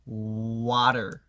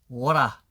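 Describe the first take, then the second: First: The r at the end is strongly rolled. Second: The r at the end is dropped. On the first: "알 발음도 사실 되게 굴리기" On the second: "이걸 그냥 되게 그냥 안 하면 돼요"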